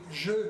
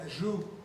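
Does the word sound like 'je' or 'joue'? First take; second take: je; joue. First: The vowel is a French eu sound. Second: The vowel is an oo sound. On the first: The speaker calls it right. "il n'a jamais été capable de dire je" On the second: The speaker calls it wrong. "il disait joue"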